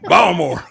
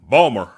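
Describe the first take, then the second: First: It is said in a standard accent. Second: It is said in a local Baltimore accent.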